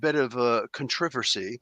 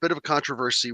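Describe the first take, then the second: First: It is said in a plain American accent. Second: It is said in a British accent.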